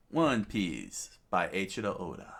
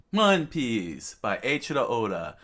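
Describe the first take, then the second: First: Said in the usual way. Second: Louder, higher announcer's opening; title announcement. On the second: Real, not acted. Reader opening the next chapter, raised announcer voice. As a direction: proclaim the title to open a chapter.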